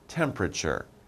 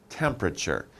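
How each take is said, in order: First: Some syllables are shortened or dropped. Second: The same.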